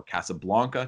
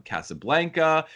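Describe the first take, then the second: First: "Casablanca" with an open AH, BLAHN-kuh; alternative pronunciation. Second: "Casablanca" with a flat A, BLANK as in blank; first pronunciation. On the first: Host offering another option, alternative pronunciation of "Casablanca". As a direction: say "Casablanca" with BLAHN in place of BLANK. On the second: Host naming a film location, first pronunciation of "Casablanca". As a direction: say "Casablanca" the everyday American way, BLANG-kuh. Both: Shown as a demonstration. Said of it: "depending on how you want to pronounce it".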